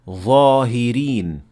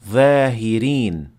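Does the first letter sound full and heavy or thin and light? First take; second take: full; thin. First: The first letter sounds full and heavy. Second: The first letter sounds thin and light. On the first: The speaker calls it right. "pronounced properly" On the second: The speaker calls it wrong.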